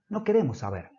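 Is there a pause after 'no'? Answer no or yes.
no. It is said without a pause after 'no'.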